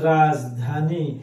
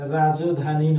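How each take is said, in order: First: No vowel is heard after 'raj'. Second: An 'o' vowel is heard after 'raj'. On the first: The speaker calls it right. "এখানে হবে রাজধানী" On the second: The speaker calls it wrong. "রাজধানী নয়"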